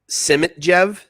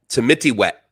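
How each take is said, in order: First: The J in the name sounds like J. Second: The J in the name sounds like W. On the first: The speaker calls it wrong. "I know I'm going to pronounce this wrong" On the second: The speaker calls it right. "you pronounce the J as a W?"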